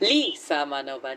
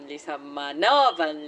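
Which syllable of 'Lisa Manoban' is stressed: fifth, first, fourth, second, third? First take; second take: first; fourth. First: The stress is on the first syllable. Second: The stress is on the fourth syllable.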